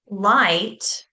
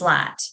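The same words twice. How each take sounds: First: The vowel glides as a full diphthong. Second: The vowel is a single flat vowel. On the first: This is the standard way to say it. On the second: This is the regional way to say it.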